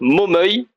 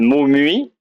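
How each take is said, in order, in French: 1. Le nom se dit avec la terminaison locale. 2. Le nom se lit exactement comme il est écrit. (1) "ça se dit soit Momeuil" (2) "les touristes disent Momui, ça pourrait sembler légitime"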